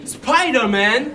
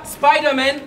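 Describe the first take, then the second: First: Spider-Man said the French way, "spee-dair-mahn", with a rolled French r; slow, Frenchified Spider-Man ending in "mahn"; Spider-Man in a mock-French pronunciation. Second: Spider-Man said the English way, "spy-der-men"; Spider-Man with an English accent. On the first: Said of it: "on dit Spider-Man". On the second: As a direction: give Spider-Man its English sound, "spydermen". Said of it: "On dit pas". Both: Shown as a demonstration.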